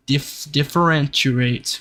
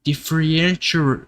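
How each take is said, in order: First: Differentiate restarted and spelled out slowly, dif-fer-EN-tee-ate; slowly rebuild Differentiate syllable by syllable; Differentiate, slow and deliberate; careful retry. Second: Differentiate stumbled over, dif-fen-sha; Differentiate, mumbled and mangled; struggling pronunciation. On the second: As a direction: trip through Differentiate as the syllables blur. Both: Shown as a demonstration. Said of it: "I hate that word".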